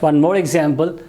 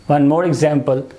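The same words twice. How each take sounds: Both takes have the same delivery.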